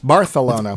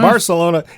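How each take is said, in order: First: The c is said with a th sound. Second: The c is said with an s sound. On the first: The speaker calls it right. "pronounce their F like this" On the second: The speaker calls it wrong. "it's not uh"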